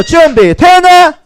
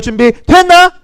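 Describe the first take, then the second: First: High, drawn-out loud call; rallying call. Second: Said in the usual way. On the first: Real, not acted. Teacher asking children again if they are ready, rallying shout. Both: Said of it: "다시 한번 더".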